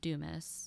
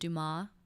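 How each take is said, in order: First: The name is said with an English pronunciation. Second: The name is said with a French pronunciation. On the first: "my name is Dumas" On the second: "the French version is Dumas"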